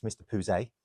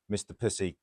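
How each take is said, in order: First: Pouzet said as "poo-ZAY"; genteel respelled pronunciation. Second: Said in the usual way. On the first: Retold or imitated. Passenger disguising an embarrassing surname, Pouzet said "poo-zay". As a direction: pronounce Pouzet with a French-style "ay" ending. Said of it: "pronounced exactly how it should be spelled". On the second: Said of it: "she pronounced her name".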